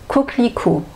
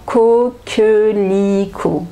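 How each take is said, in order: First: Said naturally, with the middle e sound dropped. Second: Said slowly, with the middle e sound pronounced. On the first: "je vais couper en fait. Ce E là, on ne l'entend pas" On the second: "si je parle doucement"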